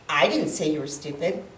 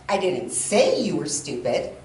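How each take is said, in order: First: The stress is on the word 'I'. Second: The stress is on the word 'say'. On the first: Someone else said it. "if I put the emphasis in that on the first word I" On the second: The speaker thought it but never said it. "that would mean I thought it, but the words never came out of my mouth"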